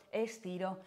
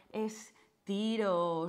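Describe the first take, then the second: First: Said in the usual way. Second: Estiro stretched long and slow; drawn-out stretch cue. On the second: Shown as a demonstration. Instructor guiding class into a stretch, slow drawn-out estiro. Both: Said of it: "y estiro".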